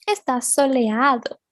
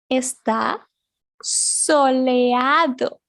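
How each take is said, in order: First: Said in the usual way. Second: "soleado" drawn out slowly, each syllable clear. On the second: Shown as a demonstration. Teacher slowly modelling "soleado" for her pupils. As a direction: stretch "soleado" so they can copy it.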